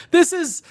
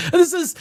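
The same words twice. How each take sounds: The two takes are said the same way.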